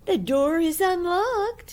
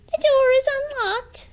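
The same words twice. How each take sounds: First: High, slow fake granny; wolf's fake granny voice. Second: High, loud granny; old granny voice. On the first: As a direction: lure her in as false granny. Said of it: "his sweetest Granny voice". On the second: Acted. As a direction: answer like a trusting old granny. Granny answers.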